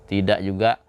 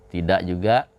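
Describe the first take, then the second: The two takes are said the same way.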